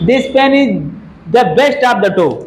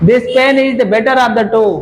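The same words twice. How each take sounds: First: Reads the wrong sentence slowly for the class; slow, even dictation pace, leaving the error for students; slow test read. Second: Gives the right version slowly, word by word; slow, clear model sentence; slow corrected read. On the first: Teacher reads faulty sentence slowly to the class. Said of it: "क्या होगा?". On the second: Teacher slowly reads corrected sentence after student answers. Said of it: "pen की तुलना pen से ही हो रही है". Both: Shown as a demonstration.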